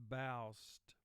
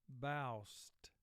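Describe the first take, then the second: The two takes are said the same way.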